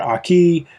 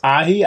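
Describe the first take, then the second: First: The middle consonant is a K sound. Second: The middle consonant is an H sound. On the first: The speaker calls it right. "I know it's actually Aki" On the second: The speaker calls it wrong. "I keep pronouncing this Ahi"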